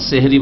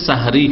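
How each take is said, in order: First: The first syllable has an 'e' vowel. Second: The first syllable has an open 'a' vowel. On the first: It sounds like a word meaning magic. The speaker calls it wrong. "সেহরি বলবেন না" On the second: It refers to the pre-dawn meal. The speaker calls it right. "একটি আদব হচ্ছে সাহরি খাওয়া"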